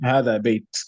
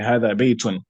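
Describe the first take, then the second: First: The word bait ends bare, with no vowel ending. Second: The word bait ends with a case vowel ending. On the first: The grammatical case is not shown. "Everything is bait, bait" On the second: The grammatical case is shown. "it should be"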